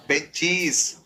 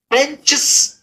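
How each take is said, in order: First: बेंचीज lower and softer, long ee and z; corrected plural. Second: बेंचेस with short hissed chs ending; wrong plural. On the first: Teacher giving students the right plural, cheez ending. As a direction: end बेंचीज in a clear cheez. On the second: Teacher showing students the failed plural, wrong hissed ending. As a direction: hiss the s straight after च in बेंचेस. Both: Shown as a demonstration. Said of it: "बेंचेस नहीं होगा".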